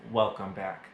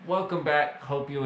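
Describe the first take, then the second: First: Said in the usual way. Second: Higher, louder cheery welcome back; excited greeting. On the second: Real, not acted. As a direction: greet them brightly, like a host. Returning after asking viewers to watch.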